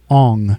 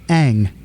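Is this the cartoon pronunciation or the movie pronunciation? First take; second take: movie; cartoon. First: The name is said as the movie says it. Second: The name is said as the cartoon says it. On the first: The speaker calls it wrong. "In the movie, it was" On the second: The speaker calls it right. "in the cartoon, it's"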